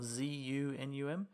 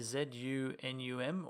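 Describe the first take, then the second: First: It is spelled in an American accent. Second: It is spelled in a non-American accent.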